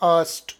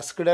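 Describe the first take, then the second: First: The word ends in an s, t sound. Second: The word ends in an s, k, d sound. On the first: The speaker calls it right. "ಇದು ಸರಿ ಇದೆ" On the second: The speaker calls it wrong. "ಇದರ ಉಚ್ಚಾರ ಆಸ್ಕ್ಡ್ ಅಲ್ಲ"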